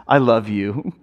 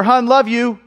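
First: Low, tender "I love you"; heartfelt. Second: Higher, tossed-off goodbye; offhand love you. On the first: Husband who stops to face his wife, heartfelt. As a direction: say it with thought, meaning it. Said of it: "to give it thought". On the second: Husband walking out the door to wife, offhand. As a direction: toss it out as you leave. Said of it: "I'm walking out the door". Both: Acted.

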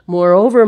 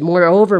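First: "moreover" said louder and higher; "moreover" repeated with extra force; stress on moreover. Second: "Moreover" said firmly; "Moreover" with weight; stress on moreover. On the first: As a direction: punch "moreover" the second time. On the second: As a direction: lean on "Moreover". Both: Shown as a demonstration. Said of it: "interesting term".

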